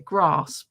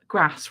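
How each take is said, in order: First: It is said in a southern English accent. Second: It is said in a northern English accent.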